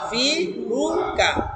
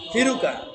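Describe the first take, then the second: First: Each syllable is said separately with breaks. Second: The syllables run together as one word.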